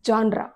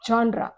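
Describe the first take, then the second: First: It begins with a 'zhon' sound. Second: It begins with a 'zhon' sound.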